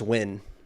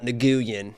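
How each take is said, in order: First: The name is said as one syllable. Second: The name is said with several syllables. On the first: The speaker calls it right. "It's just Win" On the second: The speaker calls it wrong. "it's not Nguyen"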